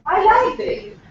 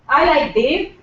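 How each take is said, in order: First: It sounds insincere, as if not meant. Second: It sounds sincere, a plain statement of fact.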